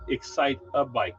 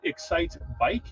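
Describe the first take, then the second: First: It is said with four syllables, an added middle vowel. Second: It is said with three syllables, no middle vowel. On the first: "I go excite a bike" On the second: "I say excite bike to please the masses"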